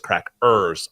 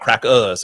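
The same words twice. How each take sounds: First: The final R sound is strongly pronounced. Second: The final R sound is dropped. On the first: The speaker calls it right. "I want my hard R" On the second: The speaker calls it wrong. "it's not crackers"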